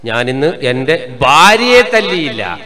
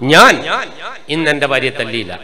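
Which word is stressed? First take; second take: ഭാര്യയെ; ഞാൻ. First: The fourth word, ഭാര്യയെ, is stressed. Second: The first word, ഞാൻ, is stressed. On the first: Her mother and sister were beaten instead. "വാ ഓള ഉമ്മാക്കോള അനിയത്തിക്കെല്ലാം ശരിക്കും കൊടുത്തു" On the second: Someone else beat her. "അർത്ഥം എന്നാ വേറെ ആളെടുത്ത് ശരിക്കും കിട്ടിയിരുന്നു"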